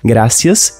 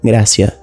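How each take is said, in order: First: The final S sound is clearly pronounced. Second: The final S sound is dropped.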